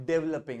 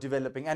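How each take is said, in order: First: "developing" clipped to dev-ling, Indian style; wrong pronunciation. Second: "developing" with a clear di-ve-lo-ping; correct pronunciation. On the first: ("developing" का गलत, छोटा उच्चारण) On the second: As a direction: say "developing" with each syllable open and distinct. ("developing" का सही उच्चारण, हर अक्षर साफ़) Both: Shown as a demonstration. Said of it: "developing and not".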